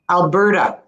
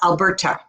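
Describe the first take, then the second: First: The T sounds soft, like a D. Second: The T is a crisp, hard T. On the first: The speaker calls it right. "It's actually pronounced like a D" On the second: The speaker calls it wrong. "not Alberta"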